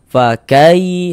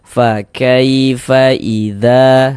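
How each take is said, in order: First: The 'kai' sound is cut off abruptly. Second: The 'kai' sound is drawn out softly. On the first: The speaker calls it wrong. "jangan dibaca fa kai, di di kejut-kejut begitu jangan" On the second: The speaker calls it right. "dilunakkan. Fa kaifa idza, nah, seperti itu"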